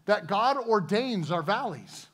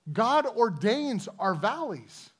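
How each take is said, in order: First: Said in the usual way. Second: Slow, weighted words, "God" stressed; slow emphatic repeat. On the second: Shown as a demonstration. Preacher repeating the point to his congregation, slow and weighty. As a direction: let each word land slowly.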